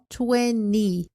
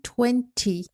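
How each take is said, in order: First: American accent, with the T after N dropped. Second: British accent, with the T after the N. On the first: "Nos sotaques americanos, eles falam twenty, excluindo o T" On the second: "Nos sotaques britânicos, eles falariam"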